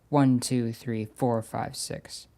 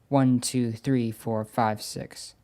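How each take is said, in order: The two takes are said the same way.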